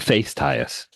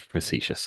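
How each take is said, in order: First: The word is said with an altered, jokey pronunciation. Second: The word is said with its standard pronunciation. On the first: "I'm being face-tious" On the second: "otherwise pronounced as facetious"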